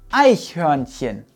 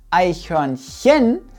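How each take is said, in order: First: The stress is on the first syllable. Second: The stress is on the third syllable. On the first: The speaker calls it right. "die erste Silbe wird betont" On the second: The speaker calls it wrong. "es heißt auch nicht Eichhörnchen"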